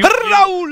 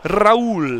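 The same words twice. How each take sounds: First: It is said loudly, with hyped energy. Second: It is said quietly, without much energy.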